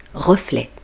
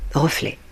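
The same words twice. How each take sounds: First: The final t is silent. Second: The same.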